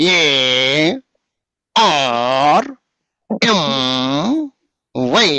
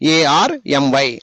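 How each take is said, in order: First: The four letters are spaced evenly apart. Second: The letters come in two pairs split by a pause. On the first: The speaker calls it wrong. "అట్లనా చెప్పేది?" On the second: The speaker calls it right. "మధ్యలో చిన్న break ఉండాలి"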